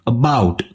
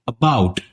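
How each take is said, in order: First: The first vowel is weak and unstressed. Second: The first vowel is weak and unstressed.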